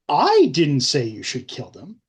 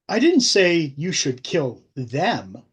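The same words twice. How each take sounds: First: The word 'I' is stressed. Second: The word 'them' is stressed.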